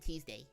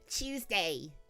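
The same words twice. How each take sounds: First: Tuesday is said in the speaker's usual accent. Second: Tuesday is said in a British accent.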